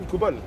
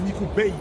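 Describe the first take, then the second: First: The last part is said as French 'bal'. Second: The last part is said like English 'bale'. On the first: The speaker calls it wrong. "ne se prononce pas Nicobal" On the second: The speaker calls it right. "C'est Nico Bale"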